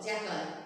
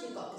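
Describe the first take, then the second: First: "jackal" as JACK-ul; short a and weak ending in "jackal"; correct pronunciation. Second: "jackal" as jay-kol; wrong pronunciation. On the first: Teacher corrects the class, "jackal" as JACK-ul. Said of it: "The pronunciation is jackal". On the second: Teacher rejects the error, "jackal" as jay-kol. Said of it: "It's not jackal". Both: Shown as a demonstration.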